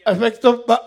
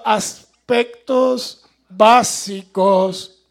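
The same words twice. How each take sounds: First: Said in the usual way. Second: Aspectos básicos, sílaba por sílaba, muy lento y alto; muy despacio y claro. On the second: Shown as a demonstration. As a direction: deletrea aspectos básicos despacio para no trabarse otra vez. (aspectos básicos pronunciado muy lento y marcado) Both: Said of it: "Ahora sí".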